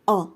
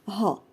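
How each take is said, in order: First: The syllable begins directly with the vowel. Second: The syllable begins with an audible h sound. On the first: The speaker calls it right. "ولكن نقول H مع أ أ" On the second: The speaker calls it wrong. "لا نقول ها"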